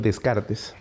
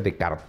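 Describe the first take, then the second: First: The name is read out letter by letter. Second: The name is said with French sounds. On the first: The speaker calls it wrong. "mal pronunció" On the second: The speaker calls it right. "se pronuncia Descartes porque es francés"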